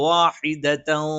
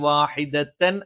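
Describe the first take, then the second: First: The final n is hidden and indistinct. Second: The final n is pronounced clearly and fully. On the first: The speaker calls it right. "ആ ഒരു തൻവീനെ അവ്യക്തമാക്കി" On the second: The speaker calls it wrong. "വാഹിദത്തൻ എന്ന് പറയാതെ"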